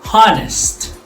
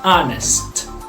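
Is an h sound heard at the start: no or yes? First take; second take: yes; no. First: The word starts with an audible h sound. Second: The word starts directly with a vowel sound. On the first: The speaker calls it wrong. "we are not reading this as honest" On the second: The speaker calls it right. "it sounds like a vowel"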